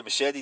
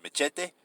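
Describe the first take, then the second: First: "machete" said muh-SHET-ee, English style; English pronunciation. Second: "machete" said ma-CHE-teh, Spanish style with ch; Spanish pronunciation. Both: Shown as a demonstration. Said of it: "Yes, movie Machete".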